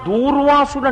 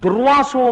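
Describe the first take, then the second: First: The first vowel is drawn out long. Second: The first vowel is kept short. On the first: The speaker calls it wrong. "దూకి దీర్ఘం ఇవ్వకూడదు, తప్పది, ఉచ్చారణ తప్పు" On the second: The speaker calls it right. "దుర్వాసో మహర్షి"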